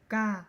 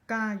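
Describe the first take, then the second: The two takes are said the same way.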